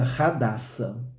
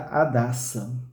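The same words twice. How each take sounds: First: The initial H is pronounced. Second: The initial H is silent. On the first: This follows the Hebrew pronunciation. "se nós lermos de acordo com o hebraico" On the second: This follows Brazilian Portuguese reading. "esse H mudo, se a gente ler como no português"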